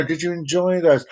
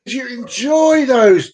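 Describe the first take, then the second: First: Said in the usual way. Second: Higher take. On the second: Shown as a demonstration.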